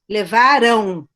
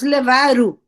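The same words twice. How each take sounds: First: The final syllable ends in a nasal diphthong. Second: The final syllable ends in a plain oral vowel. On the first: "era um, um ditongo nasal" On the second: "como uma vogal simples, eles levaram e nem nasalizamos"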